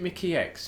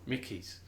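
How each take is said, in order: First: The name ends with a spoken 'ex' sound. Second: The name ends with a plain 'z' sound. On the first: The speaker calls it wrong. "Not Mickey X, is it?" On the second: The speaker calls it right. "I pronounce it as Mickey's"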